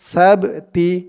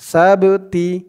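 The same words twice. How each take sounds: Both takes have the same delivery.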